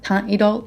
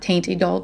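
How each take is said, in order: First: The first word has a French-style vowel. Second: The first word sounds like English 'taint'. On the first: The speaker calls it right. "but Teint Idole" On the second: The speaker calls it wrong. "not Taint Idole"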